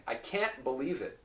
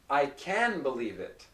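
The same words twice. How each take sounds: First: "can't" cut by a stopped T before "believe". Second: "can" voiced straight into "believe", no stop; can without T. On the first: Teacher showing students the negative, "can't" with a stopped T. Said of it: "There's a short pause in between". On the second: Teacher contrasting for students, "can" running into "believe". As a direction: say "can" with a full N and no pause. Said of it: "If I said". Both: Shown as a demonstration.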